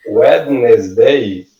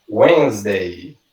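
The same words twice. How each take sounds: First: Wednesday read as written, "wed-nes-day"; spelled-out mispronunciation. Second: Wednesday as "WENZ-day", silent D; correct pronunciation. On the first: Teacher showing the misleading spelling, Wednesday pronounced letter by letter. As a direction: sound the D in Wednesday, three syllables. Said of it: "que a gente escreve". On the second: Teacher modelling for learners, Wednesday clearly said "wenz-day". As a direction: say Wednesday in two syllables, no D sound. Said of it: "a pronúncia correta dela". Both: Shown as a demonstration.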